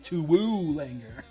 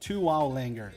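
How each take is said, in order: First: The middle syllable rhymes with 'too'. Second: The middle syllable rhymes with 'cow'. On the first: This is the actual pronunciation of the name. The speaker calls it right. "it's really" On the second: This is how the speaker habitually says it. The speaker calls it wrong. "I pronounce it"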